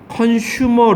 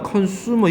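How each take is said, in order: First: The middle syllable starts with a 'sh' sound. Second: The middle syllable starts with an 's' sound. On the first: The speaker calls it wrong. "컨슈머라고 발음 안 해" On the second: The speaker calls it right. "컨슈머야 컨슈머. 이걸 왜 슈라 그러니. 수야 수"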